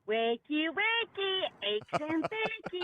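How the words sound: It imitates the toy's put-on British voice.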